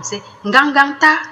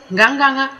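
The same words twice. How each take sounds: First: Ngangangta said high with a rising end; strongest no. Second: Nganganga said high and firm; emphatic no. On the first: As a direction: push ngangangta hard, lifting at the end. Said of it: "if you want to really emphasize it". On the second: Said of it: "If you want to emphasize it". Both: Shown as a demonstration.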